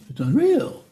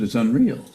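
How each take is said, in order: First: It is said in a higher-pitched voice. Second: It is said in a normal, lower pitch.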